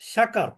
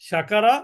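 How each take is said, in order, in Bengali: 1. শব্দটি ব্যঞ্জনবর্ণে শেষ হয়, শেষ স্বরধ্বনি বাদ যায়। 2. শব্দটি উচ্চারিত শেষ স্বরধ্বনি দিয়ে শেষ হয়।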